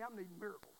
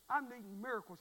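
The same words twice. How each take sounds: First: Said in the usual way. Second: I'm needing miracles said louder; louder repeat. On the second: Shown as a demonstration. Preacher to congregation, I'm needing miracles louder. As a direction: press it home to the church.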